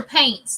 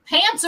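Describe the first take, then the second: First: Put-on PAINTS, the accented way of saying 'pants', with a long 'ay'; regional pronunciation. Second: Said in the usual way. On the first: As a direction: draw out the vowel in PAINTS. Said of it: "Pants or paints, too". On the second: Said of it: "Pants or paints".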